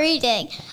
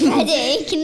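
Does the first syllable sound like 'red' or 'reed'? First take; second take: reed; red. First: The first syllable sounds like 'reed'. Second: The first syllable sounds like 'red'. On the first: It means the act of reading. The speaker calls it wrong. "not Reading" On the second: It names the town and its football team. The speaker calls it right. "It sure is called Reading"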